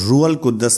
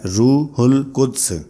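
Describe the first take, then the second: First: The h is kept and the d is doubled before a vowel. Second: The h is kept and the final d is barely heard. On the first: The speaker calls it wrong. "ये लफ्ज रूहुल कुद्दस नहीं है" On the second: The speaker calls it right. "बल्कि इसको बोलने का तरीका है रूहुल कुद्स, यानी दाल की आवाज बिल्कुल कम आती है"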